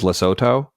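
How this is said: The name is said the American way. "while the U S is Lesotho"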